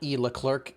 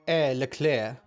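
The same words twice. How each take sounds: First: The name is said with English-style sounds. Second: The name is said with French-style sounds. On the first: The speaker calls it wrong. "it's not" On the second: The speaker calls it right. "I'm gonna say it right this time"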